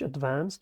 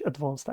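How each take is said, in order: First: It is said with an American accent. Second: It is said with a British accent. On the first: "تلفظ آمریکاییش" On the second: "تلفظ بریتانیاییش"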